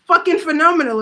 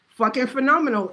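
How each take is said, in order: First: Fucking phenomenal, pitched up and louder; first take louder and higher; excited. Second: Said in the usual way. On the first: Shown as a demonstration. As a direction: hype it up big. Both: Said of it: "If I didn't get a return".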